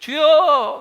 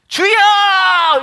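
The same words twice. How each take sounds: First: It is said timidly and self-consciously. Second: It is cried out desperately and fervently.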